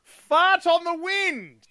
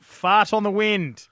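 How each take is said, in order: First: High sing-song. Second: Emphatic, relishing. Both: Shown as a demonstration. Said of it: "I just love saying that out loud".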